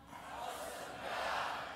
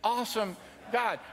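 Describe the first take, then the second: First: It is screamed loudly like a kid. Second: It is said at normal loudness.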